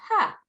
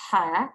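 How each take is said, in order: First: "ha" made further back in the throat; throaty ha. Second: "ha" with plenty of air through it; air-filled ha. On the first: Teacher contrasting two similar letters for pupils, throaty "ha". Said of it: "and this is more throaty". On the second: Teacher contrasting two similar letters for pupils, air-filled "ha". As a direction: let the air fill "ha". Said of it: "more of an air-filled one". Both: Shown as a demonstration.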